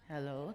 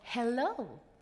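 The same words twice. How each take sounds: First: The greeting sounds cold and perfunctory. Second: The greeting sounds warm and welcoming.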